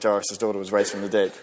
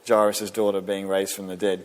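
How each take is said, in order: First: It is said quickly and offhandedly, without feeling. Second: It is said slowly and earnestly, with wonder. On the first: It is just a familiar story. The speaker calls it wrong. "we just rattle those words off" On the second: Someone really witnessed it happen. The speaker calls it right. "Can you hear the difference in my tone?"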